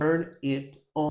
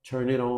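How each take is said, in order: First: The words are said separately. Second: The words are joined together.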